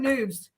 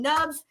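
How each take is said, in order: First: The vowel sounds like the one in 'moon'. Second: The vowel sounds like the one in 'cup'. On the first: The speaker calls it right. "So I call him Noobs" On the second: The speaker calls it wrong. "that doesn't sound right"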